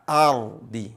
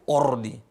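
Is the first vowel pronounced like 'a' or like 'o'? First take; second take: a; o. First: The first vowel sounds like 'a'. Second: The first vowel sounds like 'o'. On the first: The speaker calls it right. "Tapi a" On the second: The speaker calls it wrong. "Bukan o"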